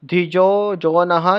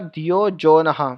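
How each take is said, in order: First: The consonant is pronounced as a J sound. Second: The consonant is pronounced as a Y sound.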